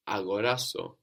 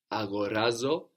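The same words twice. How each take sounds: First: Αγοράσω said a-go-RA-so, stress on RA, with s instead of z; teacher models the closed form αγοράσω; model Greek word. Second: Αγοράζω said a-go-RA-zo, stress on RA; teacher models Αγοράζω, RA stressed, then the closed form; model Greek word. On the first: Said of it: "it's raz that's taking the accent and which changes". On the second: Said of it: "it's raz that's taking the accent". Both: Shown as a demonstration.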